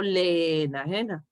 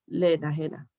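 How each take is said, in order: First: "le enajena" with "le" held separate from "enajena"; "le enajena" read as two distinct words, le, e-najena; vowels kept apart. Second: "le enajena" with the two e's fused into one syllable; "le enajena" linked as "lenajena"; vowels merged. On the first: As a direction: give each e in "le enajena" its own beat. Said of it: "no digo le enajena". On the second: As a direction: run "le" straight into "enajena". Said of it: "digo le enajena". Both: Shown as a demonstration.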